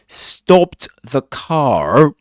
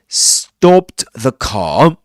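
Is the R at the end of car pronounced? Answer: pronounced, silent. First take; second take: pronounced; silent. First: The R at the end of car is pronounced. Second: The R at the end of car is silent. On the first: "he doesn't say stopped the car" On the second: "He says stopped the car... the R is not usually pronounced at the end of a word"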